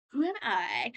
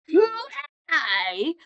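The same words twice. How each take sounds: First: Said in the usual way. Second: Loud mock-outraged repeat; indignant outburst. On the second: Villain nobody remembers repeats his question, loudly indignant. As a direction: imitate an affronted villain, loudly.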